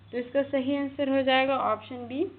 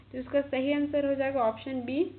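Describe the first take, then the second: Both takes have the same delivery.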